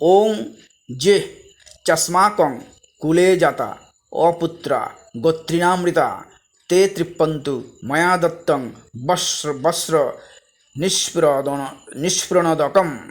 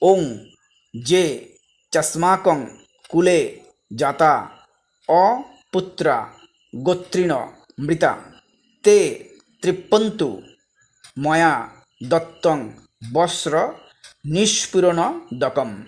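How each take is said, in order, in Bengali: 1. মন্ত্রটি একটু দ্রুত গতিতে বলা হয়। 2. মন্ত্রটি ধীরে ধীরে ও স্পষ্টভাবে বলা হয়।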